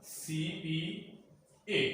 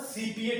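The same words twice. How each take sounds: First: "CPA" very slowly, each letter apart; slow, softer spelling of "CPA". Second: Said in the usual way. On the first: Shown as a demonstration. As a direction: spell out "CPA" softly with gaps between C, P and A. Teacher spelling out the abbreviation. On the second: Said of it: "जो मैंने कहा था CPA technique".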